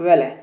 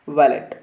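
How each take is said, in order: First: The word ends without any t sound. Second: The word ends with a clear t sound. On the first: "यहाँ पे टी silent होता है" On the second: "वैलेट हम पढ़ रहे हैं"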